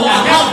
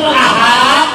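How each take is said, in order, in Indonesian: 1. Vokal dalam kata itu pendek. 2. Vokal dalam kata itu dipanjangkan. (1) "katakan Tuhan itu satu" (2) "katakan Tuhan itu ada beberapa"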